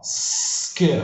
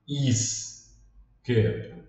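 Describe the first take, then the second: First: It starts directly with the s sound. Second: An i vowel is added before the s. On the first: The speaker calls it right. "Você começa direto no S" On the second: The speaker calls it wrong. "não seria aqui no começo"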